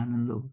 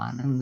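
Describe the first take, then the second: First: The name ends with an added o vowel. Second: The name ends on the final consonant. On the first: "बंगला में ना वो" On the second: "आनंद नहीं"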